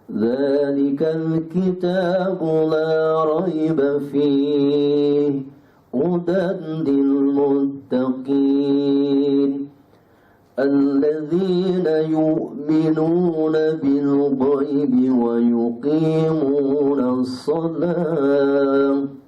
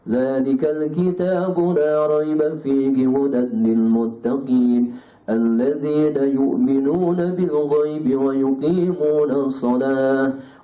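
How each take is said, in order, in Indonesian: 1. Dibaca dengan lambat dan hati-hati. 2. Dibaca dengan tempo sedang. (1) "Itu tartil" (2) "Itu pertengahan"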